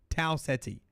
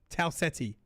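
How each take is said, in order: Both takes have the same delivery.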